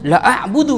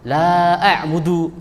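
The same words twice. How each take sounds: First: The vowel in 'la' is cut short. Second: The vowel in 'la' is held long. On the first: I truly worship what you worship. The speaker calls it wrong. "Tapi kalau dibaca la a'budu ma ta itu maknanya berbalik" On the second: I do not worship what you worship. The speaker calls it right. "la a'budu dibaca panjang itu maknanya betul"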